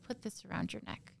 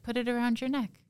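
First: A hushed, menacing retold order; retold whispered order. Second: A firmer, higher retelling of the order; retold repeated order. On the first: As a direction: whisper the husband's command under your breath. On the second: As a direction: repeat the command higher, at normal loudness.

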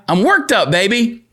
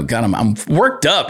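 First: Worked up. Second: Said in the usual way. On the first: Real, not acted.

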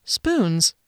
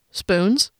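First: Spoons. stated flatly, falling at the end; deadpan Spoons. with a dropping tune; flat statement. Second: Rising, disbelieving Spoons?; Spoons? asked with a sharp upward lift; surprised question. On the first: Narrator's flat answer. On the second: Guard questions the odd spoons. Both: Acted.

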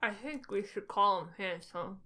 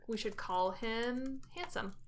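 First: Talking around a pen held in the mouth. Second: Said in the usual way. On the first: Real, not acted. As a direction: speak with a pen between your teeth. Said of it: "I had a pen in my mouth". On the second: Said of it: "Sorry, I had a pen in my mouth".

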